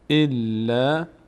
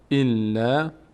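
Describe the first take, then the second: No difference in how they are said.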